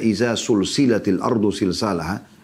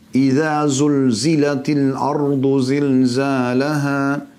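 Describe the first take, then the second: First: The repeated consonants are hissing s sounds. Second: The repeated consonants are buzzing z sounds. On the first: When the earth is joined together. The speaker calls it wrong. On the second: When the earth is shaken violently. The speaker calls it right.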